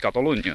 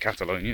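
First: The name is said with a non-English accent. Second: The name is said with an English accent. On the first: The speaker calls it right. "It's Catalonia, no?" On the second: The speaker calls it wrong. "It sounds weird to say Catalonia in an English voice"

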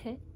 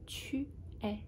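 First: The two words are squeezed into one short syllable. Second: Both words are said fully and separately. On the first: "if someone is speaking fast, it might sound like te" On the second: "but you can say"

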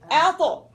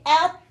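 First: The final t is released with a bounce. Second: The final t stops flat with no bounce. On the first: The speaker calls it right. "you say ato" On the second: The speaker calls it wrong. "You don't say at"

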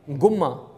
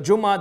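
First: The word starts with a hard g sound. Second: The word starts with a j sound.

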